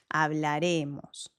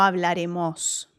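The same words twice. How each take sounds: First: The stress falls on the second-to-last syllable. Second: The stress falls on the last syllable. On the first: The speaker calls it right. "el acento está un poquito más adelante" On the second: The speaker calls it wrong. "no hablaremos"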